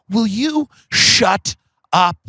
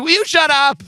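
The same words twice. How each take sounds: First: Slow, drawn-out mock telling-off; mock exasperation. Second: Much higher, quicker mock exasperation; mock outburst. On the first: Late friend silencing his mom, mock exasperation. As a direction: stretch every word in imitated exasperation. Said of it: "one of my favorite things he ever did". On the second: Friend to his mom, mock outburst. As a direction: imitate a high-pitched telling-off. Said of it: "He'd be like".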